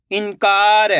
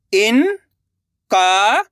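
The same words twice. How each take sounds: First: Said in the usual way. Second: इनकार split slowly; syllable by syllable. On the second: Shown as a demonstration. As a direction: sound out इनकार. (इनकार को अक्षर-अक्षर बोलना) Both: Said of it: "अब आगे देखिए".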